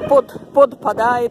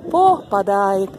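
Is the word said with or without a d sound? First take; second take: with d; without d. First: The word has a d sound after po. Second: The word has no d sound after po. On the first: The speaker calls it wrong. "не говорите слово «подпадает»" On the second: The speaker calls it right. "Нету буквы «Д»"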